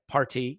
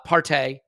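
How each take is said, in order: First: The name is said in an American accent. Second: The name is said in an English accent. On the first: This is how the speaker himself says it. "I say party" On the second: This is how the other person says it. "You say Partey"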